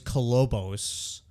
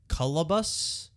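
First: The title is said with 'oh' middle and final vowels. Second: The title is said with an 'uh' middle vowel. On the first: This is how the spelling looks. The speaker calls it wrong. "I thought it was Culobos" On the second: This is how the film itself says it. The speaker calls it right. "I think is how you say it"

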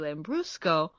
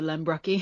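First: The word ends with a 'sco' sound. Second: The word ends with a 'ky' sound. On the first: The speaker calls it right. "I know we carry Lambrusco" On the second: The speaker calls it wrong. "they didn't even pronounce them correctly"

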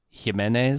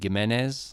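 First: The key consonant is a soft sound. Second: The key consonant is a hard g sound. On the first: "If it's a soft G" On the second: "If this is a hard G"

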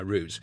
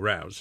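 First: Routes is said the British way. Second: Routes is said the American way. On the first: "I'm sticking with the Brit version" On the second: "You go with your routes"

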